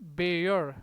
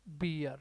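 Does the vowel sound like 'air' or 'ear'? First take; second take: air; ear. First: The vowel sounds like 'air'. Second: The vowel sounds like 'ear'. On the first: It is used as a verb. "यदि verb है तो इसका pronunciation क्या होगा?" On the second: It is used as a noun. "यदि noun है तब इसका प्रोनाउंसिएशन होता है बियर"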